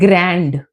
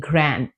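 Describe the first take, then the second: First: The final D sound is pronounced. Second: The final D sound is dropped. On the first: The speaker calls it wrong. "you don't say" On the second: The speaker calls it right. "we say"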